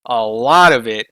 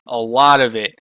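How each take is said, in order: Both takes have the same delivery.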